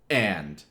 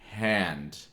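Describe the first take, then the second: First: The word starts with a hard glottal catch. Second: The word starts with an audible h sound. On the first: "A glottal being this kind of sound" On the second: "where it's pretty much hand"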